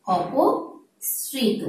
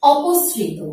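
First: অপসৃত drawn out very slowly and softer; slow soft demonstration. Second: Said in the usual way. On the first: Shown as a demonstration. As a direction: stretch অপসৃত gently, syllable by syllable. (অপসৃত ধীরে নরম স্বরে টেনে উচ্চারণ) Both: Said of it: "অথবা শব্দ আছে".

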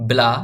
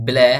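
First: Short ব্লা with open aa; straight "a" vowel. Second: Short ব্ল্যা with tilted ae; slanted "ae" vowel. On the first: Teacher drills the spelling for learners, ব্লা with straight aa. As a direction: read ব্লা straight, as in "blah". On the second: Teacher drills the second reading, ব্ল্যা with slanted ae. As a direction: read ব্ল্যা slanted, as in "cat". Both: Shown as a demonstration. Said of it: "এটা পড়তে হয় এভাবে".

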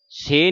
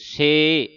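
First: ਸੇ cut short, pure e; wrong short se. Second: ਸੇ drawn out with a slight i glide, "sei"; sounded sihari. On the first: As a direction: say ਸੇ without the i glide. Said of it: "ਸੇ ਨਹੀਂ ਪੜ੍ਹ ਦੇਣਾ". (ਸੇ ਨੂੰ ਸਿਹਾਰੀ ਤੋਂ ਬਿਨਾਂ ਛੋਟਾ ਬੋਲੋ) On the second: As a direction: let ਸੇ glide into a short i. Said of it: "ਈੜੀ ਨੂੰ ਸਿਆਰੀ ਲੱਗੀ ਉਚਾਰਨ". (ਸੇ ਨੂੰ ਲਮਕਾ ਕੇ "ਸੇਇ") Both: Shown as a demonstration.

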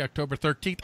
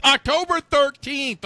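First: Said in the usual way. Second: October thirteenth pitched high, loud and slow; drawn-out, loud stress on October thirteenth; emphatic repeat. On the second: Pretend.

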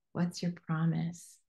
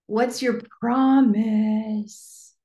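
First: Quiet repeat. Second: Drawn out, slow and louder; slow dramatic question. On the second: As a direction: stretch every word of "What's your promise?" slowly and boldly. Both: Shown as a demonstration.

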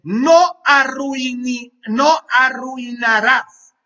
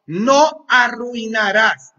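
First: No arruinarás, alto y lento; plántale cara al diablo, fuerte y despacio; firme al diablo. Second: Firme al diablo. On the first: (reto firme al diablo, fuerte y lento) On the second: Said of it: "Esa es la palabra". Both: Acted.

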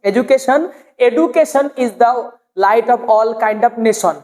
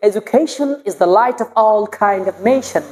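First: "education" stiff as e-du-ke-san; short plain vowels in "education" and "nation"; unrefined pronunciation. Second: Slow, with "education" as e-ju-KHEI-shon; polished "nation" with a long nei glide; beautiful pronunciation. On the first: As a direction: say "nation" as ne-shon, no glide. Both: Shown as a demonstration. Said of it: "এটাকে যদি আমরা সুন্দর করে বলি".

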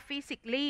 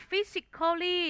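First: "physically" as FI-sik-lee, three syllables; correct pronunciation. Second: "physically" as fi-sik-KHAW-lee, four syllables; spelling pronunciation. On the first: Teacher giving students the reading, "physically" shortened to fi-sik-lee. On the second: Teacher moving on through the word list, "physically" sounded out as fi-sik-khaw-lee. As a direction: give "physically" its full written "-cal-". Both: Shown as a demonstration. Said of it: "อ่านว่า".

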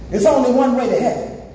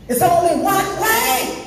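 First: Said in the usual way. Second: High, slow rising declaration; preacher's emphasis. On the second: Real, not acted. Preacher insists on the only road to heaven, high drawn-out cry. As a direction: stretch it out high to drive it home. Preacher repeats line with force.

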